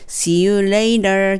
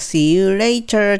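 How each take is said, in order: First: The t in later sounds soft, like an l. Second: The t in later is pronounced clearly and crisply. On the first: The speaker calls it right. "t の部分はl と同じ音で大丈夫です" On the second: The speaker calls it wrong. "はっきり言うんじゃなくて"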